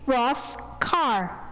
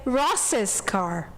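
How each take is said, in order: First: Ross is said with no extra syllable. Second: Ross is followed by an extra syllable. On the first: This follows the written rule. "the possessive for Ross should be Ross' car" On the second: This is how Americans commonly say it. "they say Ross's car"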